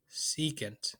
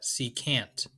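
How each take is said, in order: First: Said in the usual way. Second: "secant" with a full "a", ending like "can't"; alternative pronunciation. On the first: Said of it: "or as some people call it". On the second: Shown as a demonstration. Giving students the other way some people say it, alternative pronunciation. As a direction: say "secant" as see-CANT. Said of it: "as some people call it".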